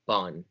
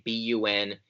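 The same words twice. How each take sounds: First: Bun said as one syllable; read as a word. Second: B U N said letter by letter; spelled-out initials. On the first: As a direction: say bun as a single word, rhyming with fun. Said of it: "nurses typically say bun". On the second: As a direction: say B U N as three separate letters. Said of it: "instead of B U N". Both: Shown as a demonstration.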